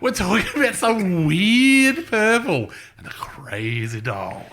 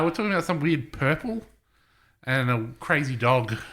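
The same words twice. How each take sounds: First: It is said with more enthusiasm and energy. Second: It is said flatly, with little enthusiasm.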